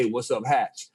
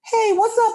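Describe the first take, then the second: First: Said in the usual way. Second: Greeting squeaks out far higher; nervous falsetto crack on the greeting. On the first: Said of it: "I said that in my mind". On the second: Retold or imitated. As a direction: starstruck voice jumping way up. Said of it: "but my voice was like".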